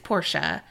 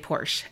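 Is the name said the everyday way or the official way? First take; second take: official; everyday. First: The name is said the official way. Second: The name is said the everyday layman's way. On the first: This is how the company says the name. The speaker calls it right. "y'all have been pronouncing this incorrectly. It's Porsche" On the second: This is how ordinary people say the name. The speaker calls it wrong. "if you're a layman like me, you still say Porsche"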